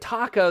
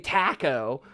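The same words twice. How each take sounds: First: It is said with American vowel sounds. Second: It is said with British vowel sounds. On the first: "instead of taco" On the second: "they say taco"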